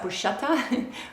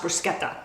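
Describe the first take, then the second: First: It is said the common American way. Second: It is said the Italian way. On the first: The speaker calls it wrong. "people in this country pronounce that" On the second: The speaker calls it right. "it's pronounced"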